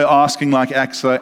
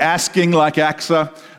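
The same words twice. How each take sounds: First: It is said in a non-American accent. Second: It is said in an American accent. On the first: The two words do not rhyme. "I would say" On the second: The two words rhyme. "So you would say"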